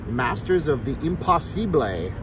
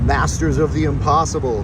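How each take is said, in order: First: It is read in an ordinary speaking voice. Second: It is read in a put-on radio-announcer voice.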